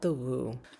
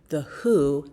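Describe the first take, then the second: First: The name begins with a w sound. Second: The name begins with an h sound. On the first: The speaker calls it wrong. "not The Woo" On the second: The speaker calls it right. "the brand name is pronounced The Who"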